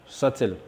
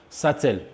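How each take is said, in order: No difference in how they are said.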